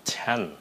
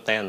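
First: The t is said with a puff of air. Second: The t is said without a puff of air. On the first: The speaker calls it right. "nó là ten" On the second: The speaker calls it wrong. "Đừng có ten"

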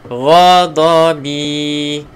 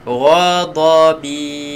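No difference in how they are said.

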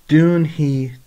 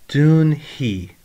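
The two takes are said the same way.

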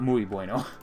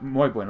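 First: It is said with an American-sounding accent. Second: It is said with a Spanish-sounding accent. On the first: The speaker calls it wrong. "not muy bueno. That's too American" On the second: The speaker calls it right. "Probably muy bueno"

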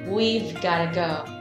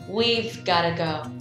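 First: The words are shortened and run together quickly. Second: The words are shortened and run together quickly.

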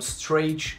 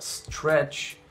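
First: The vowel has an added ee-like glide. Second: The vowel is plain, with no glide. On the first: The speaker calls it wrong. "никого там stretch нету" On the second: The speaker calls it right. "Есть только stretch"

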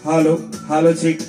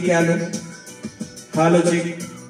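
First: The voice has boosted bass. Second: The voice has an echo effect. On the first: "ये दोस्तों हमारा mic का बेस है।" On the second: "ये इको है दोस्तों।"

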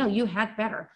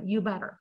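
First: The word 'had' is fully pronounced. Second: The word 'had' is dropped entirely. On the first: The speaker calls it wrong. "발음 다 해주는 경우가 거의 없어요" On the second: The speaker calls it right. "그 완전히 과감히 무시한다라는 거"

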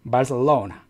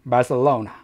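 Both takes have the same delivery.

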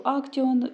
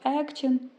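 First: It is pronounced the speaker's own, non-German way. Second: It is pronounced the way Germans say it. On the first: "я кажу Action" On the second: "німці кажуть Action"

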